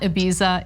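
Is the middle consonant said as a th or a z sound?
z. The middle consonant is a buzzing z sound. The speaker calls it wrong. "It is not Ibiza"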